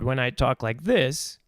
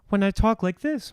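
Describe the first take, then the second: First: The voice sounds rough and gritty. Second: The voice sounds smooth and clean. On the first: "it's a more rough sound" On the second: "my voice is very smooth"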